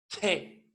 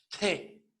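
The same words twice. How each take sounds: First: The consonant is released with a breathy puff. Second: The consonant is released with a breathy puff.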